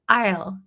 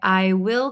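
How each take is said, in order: First: One short contracted syllable is pronounced. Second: Two separate full words are pronounced. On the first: "I'll, I'll, I'll" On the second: "I didn't say I will call you back"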